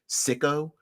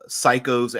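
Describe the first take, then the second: First: The first syllable sounds like 'sick'. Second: The first syllable sounds like 'sigh'. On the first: The speaker calls it right. "it's pronounced Sicko, like as in sycophant" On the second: The speaker calls it wrong. "Actually, t- actually"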